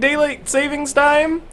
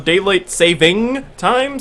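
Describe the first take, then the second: First: An S sound is added after 'saving'. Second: No S sound is added after 'saving'. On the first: The speaker calls it wrong. "everyone pronounces it wrong" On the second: The speaker calls it right. "since there's no S"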